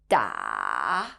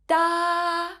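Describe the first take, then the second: First: The pitch dips low, then rises again. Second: The pitch stays high and level throughout. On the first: "falling down first before going back up" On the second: "is a high flat tone. It sounds like this"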